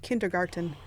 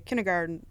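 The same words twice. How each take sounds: First: Every sound of the word is pronounced in full. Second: A sound is dropped from the middle of the word. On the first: This is the full form as it is written. "and not kindergarten" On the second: This is the easier everyday way people say it. "People just drop stuff out of stuff because it's easier to say. Like people say kindergarten"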